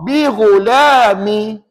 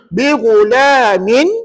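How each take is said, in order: First: The word ends without the final n sound. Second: The word ends with a final n sound. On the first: "min jadi mi" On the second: "kalau kita tak baca nun iwat, bacaannya begini"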